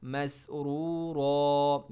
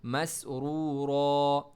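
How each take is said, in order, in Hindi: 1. शब्द एक लंबे खुले स्वर पर खत्म होता है। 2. शब्द एक लंबे खुले स्वर पर खत्म होता है।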